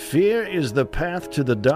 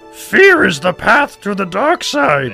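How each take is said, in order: First: It sounds like an Obi-Wan Kenobi voice. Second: It sounds like a Yoda voice.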